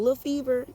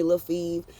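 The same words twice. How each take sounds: First: "Fever" in two syllables, "fee-ver", pitched higher; full nickname form. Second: "Fever" cut to one syllable, "feev"; clipped nickname form. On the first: Older people greeting her, "Fever" said in full as "fee-ver". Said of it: "The older people". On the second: Winos greeting her by nickname, "Fever" shortened to "feev". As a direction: drop the ending of "Fever", saying "feev". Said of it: "The winos call me". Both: Shown as a demonstration.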